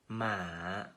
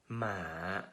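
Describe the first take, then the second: No difference in how they are said.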